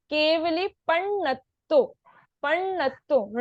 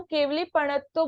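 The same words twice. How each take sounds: First: Slow पण्णत्तो, pressing on the double ण; पण्णत्तो drawn out with both ण sounded; stress on ण. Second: पणत्तो run quickly through one ण; पणत्तो with the ण not doubled; single ण. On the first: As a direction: hold the half ण before releasing पण्णत्तो. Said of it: "ण पे थोड़ा सा जोर देना है". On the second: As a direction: say पणत्तो without the half ण. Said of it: "सिर्फ एक ही पूरे ण का उच्चारण हो रहा". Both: Shown as a demonstration.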